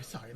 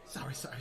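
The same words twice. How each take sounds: First: Lowest and softest, almost gone; fading apology. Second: Much lower and softer, fading away; trailing apologies. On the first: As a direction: let the last sorry die away. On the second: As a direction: mumble the apologies into nothing. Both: Acted. Flustered gnome apologizing.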